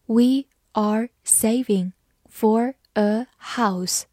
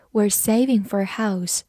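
First: Slow, careful reading pace; slowly. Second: Said in the usual way. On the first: Shown as a demonstration. Teacher reads the sentence slowly for learners, slow. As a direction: read it out word by word, slowly. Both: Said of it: "好，慢慢来读".

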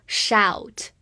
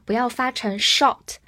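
First: "shout" slowly with a wide-open ow diphthong; wide-mouth diphthong. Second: "shot" with a short o vowel, mouth barely opening; wrong vowel. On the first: 老师张大嘴慢慢示范 "shout". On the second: 老师示范错误发音 "shot". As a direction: say "shot" as the mistaken, closed-mouth version. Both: Shown as a demonstration. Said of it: "注意口型一定要足够大".

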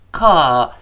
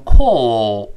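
First: "call" with an open, unrounded ah vowel; American pronunciation. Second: "call" with a long, rounded aw vowel; British pronunciation. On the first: Teacher shows learners American "call", open relaxed ah vowel. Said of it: "这是一个美式发音". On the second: Teacher shows learners British "call", long rounded aw vowel. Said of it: "英式发音读成". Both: Shown as a demonstration.

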